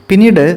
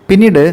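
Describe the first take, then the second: The two takes are said the same way.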